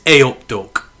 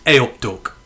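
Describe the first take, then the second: First: "A up, Duck" in a broad Midlands accent, a touch louder; a hint of a Midlands accent; Midlands greeting. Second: "A up, Duck" in a plain Midlands accent, level and easy; a relaxed Midlands accent; Midlands greeting. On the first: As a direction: give it the local Midlands lilt, lightly. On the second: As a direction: say it the local Midlands way, calmly. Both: Shown as a demonstration. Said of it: "We call each other Duck here".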